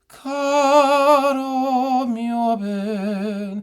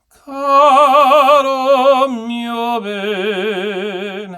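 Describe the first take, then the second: First: The voice is breathy with audible air. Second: The voice is balanced, neither breathy nor pressed.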